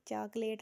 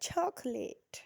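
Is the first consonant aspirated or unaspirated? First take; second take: unaspirated; aspirated. First: The first ch has no puff of air. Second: The first ch has a strong puff of air. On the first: The speaker calls it wrong. "चॉकलेट नहीं बोलना" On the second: The speaker calls it right. "ये च sound नहीं है, छ sound है"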